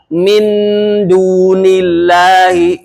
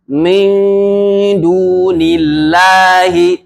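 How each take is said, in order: First: The n is pronounced clearly before the d. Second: The n is blurred and nasalized into the d. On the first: The speaker calls it wrong. "Nun matinya jelas. ... itu nggak boleh" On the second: The speaker calls it right. "cara membacanya ini disamarkan nun matinya"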